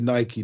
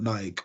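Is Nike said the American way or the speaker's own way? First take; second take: American; own way. First: It is said the way Americans pronounce it. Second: It is said in the speaker's own non-American way. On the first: The speaker calls it right. "it's actually Nike" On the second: The speaker calls it wrong. "not Nike"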